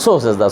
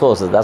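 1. প্রথম শব্দটি ছোট করে এক সিলেবলে বলা হয়, so। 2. প্রথম শব্দটি ছোট করে এক সিলেবলে বলা হয়, so।

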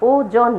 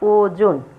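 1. দ্বিতীয় অক্ষরে খোলা 'aw' স্বর আছে। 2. দ্বিতীয় অক্ষরে বদ্ধ 'o' স্বর আছে। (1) "নয়" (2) "ও বরিগজ্জ ওকার দন্তন্য"

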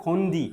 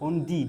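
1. নামটি 'dee' ধ্বনিতে শেষ হয়। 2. নামটি 'dee' ধ্বনিতে শেষ হয়।

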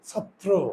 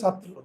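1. শব্দটি স্পষ্ট 'ও' স্বরধ্বনি দিয়ে শেষ হয়েছে। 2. শব্দটি স্পষ্ট 'ও' স্বরধ্বনি ছাড়া শেষ হয়েছে। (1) "কিন্তু শুদ্ধ উচ্চারণ ছাত্র" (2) "আমরা উচ্চারণ করি ছাত্র"

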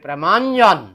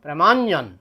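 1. দুটি শব্দ মিলে একটি শব্দ হয়ে যায়। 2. দুটি শব্দ মিলে একটি শব্দ হয়ে যায়।

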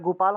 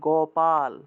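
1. প্রথম স্বরধ্বনিটি 'u'-এর মতো শোনায়। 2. প্রথম স্বরধ্বনিটি 'o'-এর মতো শোনায়। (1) "গয়ের সুকার উচ্চারণ করে ফেলি" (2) "এটা হবে গোপাল"

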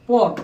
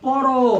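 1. শব্দটি খালি ব্যঞ্জনে শেষ হয়। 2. শব্দটি শেষে o স্বরে শেষ হয়। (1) "তাহলে কিন্তু এই জায়গায় হসন্ত হয়ে যাবে" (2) "মুখ বন্ধ হয়ে গেলে সে জায়গায় এরকম করে"

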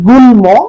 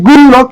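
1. শব্দে ম-ধ্বনিটি বজায় থাকে। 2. শব্দ থেকে ম-ধ্বনিটি বাদ যায়। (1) "হবে গুল্ম" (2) "উচ্চারণ হওয়ার কথা ছিল গুল্ম কিন্তু হবে না"

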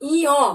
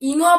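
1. বর্ণের নামটি একটি স্বরধ্বনির গ্লাইড দিয়ে শেষ হয়। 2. বর্ণের নামটি নাসিক্য 'ng' ধ্বনিতে শেষ হয়। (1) "এটি হলো ইয়" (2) "অনেক সময় কিন্তু এই ইয়কে আমরা ইঙ বলি, কিন্তু এটি কিন্তু সহজ উচ্চারণ নয়"

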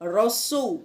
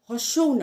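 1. শব্দটি r ধ্বনি দিয়ে শুরু হয়। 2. শব্দটি h ধ্বনি দিয়ে শুরু হয়।

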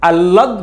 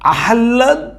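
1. l-এর আগে কোনো h ধ্বনির উচ্চারণ হয় না। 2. l-এর আগে h ধ্বনির উচ্চারণ হয়। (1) "আহ্লাদ বলাটা একটু সহজ" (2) "আহ্লাদ উচ্চারণ করাটা একটু টাফ"

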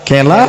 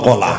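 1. প্রথম স্বরধ্বনিটি 'e'-র মতো শোনায়। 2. প্রথম স্বরধ্বনিটি 'o'-র মতো শোনায়। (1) "দক্ষিণ দিনাজপুরের লোক কি বলে? কলা না কেলা? কেলা, কেলা বলবেন না" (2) "কলা বলবেন, কলা।"

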